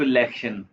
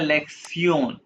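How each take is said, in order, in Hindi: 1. अंत 'shun' जैसा सुनाई देता है। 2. अंत 'tsee-on' जैसा सुनाई देता है। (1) "ये लिखा हुआ आप पढ़ोगे इसको लेक्शन" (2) "ये टी आई ओ एन को प्रोनाउंस करते हैं जर्मन में सियोन"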